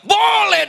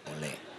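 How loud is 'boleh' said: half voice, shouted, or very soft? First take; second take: shouted; very soft. First: The word is shouted loudly. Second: The word is said very softly. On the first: The request is obviously fine. "Langsung saya teriak" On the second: The request is barely worth making anymore. "Lebih pelan lagi tuh"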